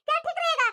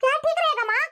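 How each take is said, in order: First: Angry repeat landing on रहेगा. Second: Loud, with ठीक hit hard; angry daughter stressing ठीक loudly; angry retort. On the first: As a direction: lean on रहेगा, then drop. Daughter repeats angrily. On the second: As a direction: punch ठीक in anger. Daughter complaining angrily. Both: Acted.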